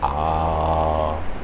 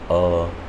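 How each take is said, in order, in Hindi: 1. स्वर को बहुत देर तक खींचा जाता है। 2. स्वर को बहुत थोड़ी देर तक रोका जाता है।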